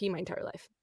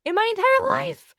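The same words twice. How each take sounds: First: Said in the usual way. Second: "entire life" much higher and louder; emphatic repeat. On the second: Real, not acted. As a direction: repeat "entire life" in high, loud disbelief.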